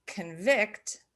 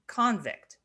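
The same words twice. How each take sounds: First: Convict stressed on the second syllable; conVICT, second syllable punched. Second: Convict stressed on the first syllable; CONvict, first syllable punched. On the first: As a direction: say convict with the weight on VICT. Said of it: "convict being the verb". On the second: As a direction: say convict with the weight on CON. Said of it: "convict being the noun". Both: Shown as a demonstration.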